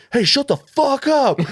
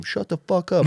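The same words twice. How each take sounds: First: High, slow, loud bellow of "shut the fuck up"; furious yell. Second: Retold yell. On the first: Retold or imitated. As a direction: roar it at the heckler. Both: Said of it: "like, yelling this".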